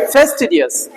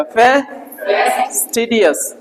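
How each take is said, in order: First: Said in the usual way. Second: फेस्टिडियस slowly, with फे lifted and held; slow model pronunciation. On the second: Shown as a demonstration. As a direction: draw out फेस्टिडियस, leaning on फे. (फे पर ज़ोर, धीमा उच्चारण) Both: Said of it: "फे ऊपर बोला जाएगा".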